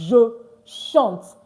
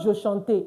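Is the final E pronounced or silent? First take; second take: silent; pronounced. First: The final E is silent at the end. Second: The final E is sounded at the end. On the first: The speaker calls it right. "the E at the end is not pronounced" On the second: The speaker calls it wrong. "It's not je chante"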